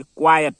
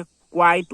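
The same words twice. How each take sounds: First: क्वाइट in two syllables, kwa-yat; quiet pronunciation. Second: क्वाइट as one syllable, kwait; quite pronunciation. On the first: Teacher showing students the word quiet, क्वाइट said kwa-yat. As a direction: put a ya sound before the t in क्वाइट, loudly. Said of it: "य आएगा". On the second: Teacher showing students the word quite, क्वाइट said kwait. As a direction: glide straight from kwai into the t in क्वाइट. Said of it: "यहाँ पर ई आएगा". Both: Shown as a demonstration.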